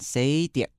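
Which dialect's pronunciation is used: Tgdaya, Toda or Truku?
Tgdaya. The name is said in the Tgdaya dialect form.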